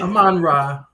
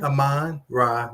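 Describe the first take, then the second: First: "Amon-Ra" run together, louder and higher; quick pronunciation. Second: "Amon-Ra" slowly, split as uh-MON, rah; slow pronunciation. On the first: Co-host showing how the name flows, quick pronunciation. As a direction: say "Amon-Ra" in one quick, punchy go. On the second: Co-host breaking down the first name, slow pronunciation. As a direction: stretch "Amon-Ra" into two slow parts. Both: Shown as a demonstration. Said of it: "We just say it pretty quickly".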